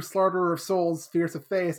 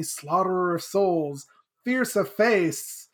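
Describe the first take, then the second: First: Said in the usual way. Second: Lightly dramatic retold title; Shezmu. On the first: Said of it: "And then Sadie's like". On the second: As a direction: draw out the grim nickname slowly at the end. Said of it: "And Shezmu's like".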